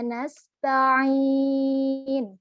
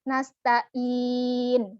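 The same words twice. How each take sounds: First: The middle consonant comes deep from the throat. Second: The middle consonant is a plain glottal stop.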